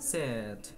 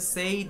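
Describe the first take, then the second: First: The vowel is a short 'eh' sound. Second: The vowel is a long 'ay' sound. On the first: The speaker calls it right. "এটা সেড" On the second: The speaker calls it wrong. "এটা কিন্তু সেইড না"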